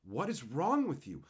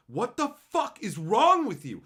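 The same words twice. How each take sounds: First: Said in the usual way. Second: FUCK and WRONG hit loud and high; louder, higher, incensed demand; exasperated outburst. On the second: Real, not acted. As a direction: burst out in disbelief, pitch jumping. Repeats the question, exploding.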